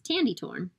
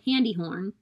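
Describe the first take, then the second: First: Each word begins with a t sound. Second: Each word begins with an h sound. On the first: "substituting that T sound" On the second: "he can't make his hard k sound very well"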